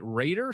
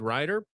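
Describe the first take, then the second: First: The first vowel sounds like 'raid'. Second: The first vowel sounds like 'ride'. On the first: "it's probably Raider" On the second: "I've always pronounced it Rider"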